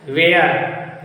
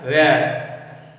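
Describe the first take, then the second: First: "where" said the habitual way, drawn out like "ve-yar"; "where" as people usually mispronounce it, "ve-yar"; common wrong pronunciation. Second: "where" said carefully as "ve-er", falling tune; teacher showing the proper "where", "ve-er"; correct pronunciation. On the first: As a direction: say "where" the careless local way, "ve-yar" with a rolled r. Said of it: "लेकिन शुद्ध उच्चारण ये नहीं है". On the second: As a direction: model the pure "where", short "ve-er" ending low. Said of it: "इसका शुद्ध उच्चारण होता है". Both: Shown as a demonstration.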